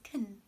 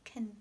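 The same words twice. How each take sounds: Both takes have the same delivery.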